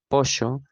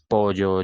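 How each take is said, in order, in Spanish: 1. La consonante del medio es un sonido parecido a sh, siseante. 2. La consonante del medio es un sonido parecido a la y. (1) "en Argentina con este yeísmo reilado pasan a pronunciarse algo similar a" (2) "En otros países las palabras pollo, llave, yo suenan tal cual como se escriben"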